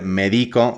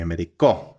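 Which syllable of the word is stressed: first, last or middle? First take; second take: middle; last. First: The stress is on the middle syllable. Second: The stress is on the last syllable. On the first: It says I medicate. "in each case, we're changing the position of the stressed syllable" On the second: It says he medicated. "in each case, we're changing the position of the stressed syllable"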